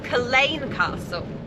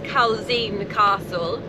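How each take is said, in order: First: The first word is said without a z sound. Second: The first word is said with a z sound. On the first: "So you drop the Z apparently" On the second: "we read it as"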